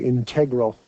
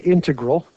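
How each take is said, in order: First: It is pronounced the way non-math people say it. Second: It is pronounced the way math people say it. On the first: The speaker is not a math person. "And if you're not, you might say integral" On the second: The speaker is a math person. "If you're a math person, you'll say integral"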